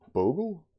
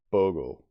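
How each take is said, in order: First: "Bogle?" tried out much higher and louder, rising like a baffled question; puzzled try at the word. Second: "Bogle." said firmly with a falling tune, /ˈboʊɡl/; settled pronunciation. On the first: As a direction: sound out "Bogle?" as an incredulous query, /ˈboʊɡəl/. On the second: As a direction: land on "Bogle." as the final answer, falling. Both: Real, not acted. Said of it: "Let's look that up".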